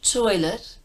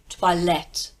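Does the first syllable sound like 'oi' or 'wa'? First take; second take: oi; wa. First: The first syllable has an 'oi' sound. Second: The first syllable has a 'wa' sound. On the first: The speaker calls it wrong. "not toilet" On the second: The speaker calls it right. "O I sounds like wa"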